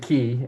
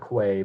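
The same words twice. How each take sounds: First: It is said in a British way. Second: It is said in an American way.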